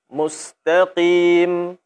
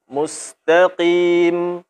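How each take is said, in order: No difference in how they are said.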